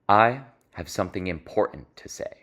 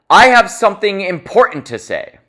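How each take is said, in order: First: The sentence is said in a low, quiet voice. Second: The sentence is said very loudly. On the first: The message feels intimate and draws listeners in. "I'll lower my voice" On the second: The message feels urgent. "I did that very loudly"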